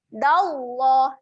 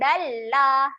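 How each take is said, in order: First: The 'l' sound is heavy and thick. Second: The 'l' sound is light and thin. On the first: The speaker calls it right. "lamnya kita baca dengan tebal" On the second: The speaker calls it wrong. "Jangan baca dengan dallah. Salah eh"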